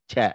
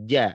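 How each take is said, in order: First: It starts with a voiceless ch sound. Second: It starts with a strong voiced j sound. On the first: The speaker calls it wrong. "tidak ca" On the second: The speaker calls it right. "dibacanya kuat ja"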